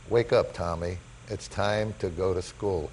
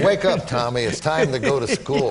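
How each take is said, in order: First: Soft, slow, low-key mother's words; gentle wake-up call. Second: Put-on lively, raised-voice mother rousing her boy; brisk retold wake-up call; mother's wake-up call. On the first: Retold or imitated. Mother waking him from his Hall of Fame dream, gentle and slow. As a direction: ease it out softly and slowly. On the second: Mother shaking Tommy out of his Yankee dream, lively wake-up call.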